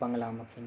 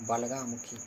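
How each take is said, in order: First: The first syllable has a nasal 'n' sound. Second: The first syllable has no nasal sound. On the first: The speaker calls it wrong. "वो बंगलामुखी नहीं" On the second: The speaker calls it right.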